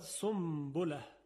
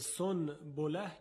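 First: An m sound comes before the b. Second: An n sound comes before the b.

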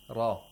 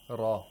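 The two takes are said the same way.

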